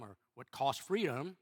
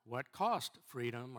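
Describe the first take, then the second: First: "freedom" stressed with a rising tune. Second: "cost" leaned on hard, the whole line slow; slow question with the punch on "cost"; stress on cost. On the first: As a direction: lift and lean on "freedom". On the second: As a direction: land the weight on "cost". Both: Shown as a demonstration. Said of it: "where you put the emphasis on the syllables".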